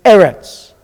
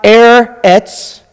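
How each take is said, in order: First: "Eretz" as eh-rets, run together; correct syllable break. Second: "Eretz" split as air-ets, drawn out; wrong syllable break. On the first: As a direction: open "eh", then "rets" in one smooth "Eretz". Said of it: "it's Eretz". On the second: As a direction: break "Eretz" after the r, slowly, in two pieces. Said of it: "So it's not Eretz". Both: Shown as a demonstration.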